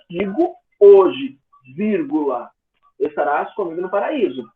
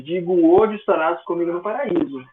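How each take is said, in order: First: It breaks off right after 'hoje'. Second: It runs on with no break after 'hoje'. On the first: The promise is made today, for a later time. The speaker calls it right. "Existia uma vírgula logo após o hoje" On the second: Paradise is promised for that very day. The speaker calls it wrong. "eu pronunciando dessa forma, sem nenhuma vírgula"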